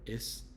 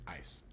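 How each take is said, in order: First: "is" as "iss", short I and S sound; wrong short vowel. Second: "ice" with the vowel of "eye"; long I sound. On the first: Teacher showing how ice isn't said, "is" with short I. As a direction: say "is" to rhyme with "miss". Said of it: "it's not". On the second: Teacher explaining the final E, "ice" with long I. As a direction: say "ice" to rhyme with "nice". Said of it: "because that E is there". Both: Shown as a demonstration.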